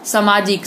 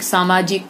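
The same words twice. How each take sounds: First: सामाजिक begun with short "sa"; shortened vowel. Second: Said in the usual way. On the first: Shown as a demonstration. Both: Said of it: "आ के स्थान पर अह".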